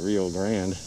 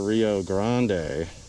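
First: It is said with an American pronunciation. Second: It is said with a non-American pronunciation.

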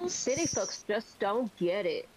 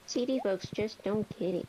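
First: It has a heavier, put-on southern accent. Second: It has little southern accent.

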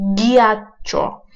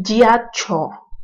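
First: The word starts with a hard g sound. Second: The word starts with a soft j sound. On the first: The speaker calls it right. "tapi giacho" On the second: The speaker calls it wrong. "ya bukan giacho"

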